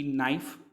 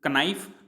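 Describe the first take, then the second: First: नाइफ with no k sound at the start; silent k. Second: कनाइफ with the k spoken; the wrong way, sounding the k; wrong k sounded. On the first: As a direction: say नाइफ, drop the k. (के बिना नाइफ बोलिए) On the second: (गलत उच्चारण, क बोलकर) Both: Shown as a demonstration. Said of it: "लेकिन उसको पढ़ते हम नाइफ".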